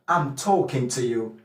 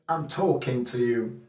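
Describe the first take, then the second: First: It is said in a Cockney accent. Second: The same.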